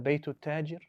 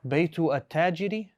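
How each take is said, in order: First: The words run together smoothly into one. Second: The article is sounded out separately and carefully. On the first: The speaker sounds like a native. The speaker calls it right. "when you can just roll it off" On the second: The speaker sounds like a foreigner. The speaker calls it wrong. "this is a foreigner speaking"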